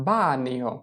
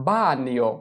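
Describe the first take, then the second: Both takes have the same delivery.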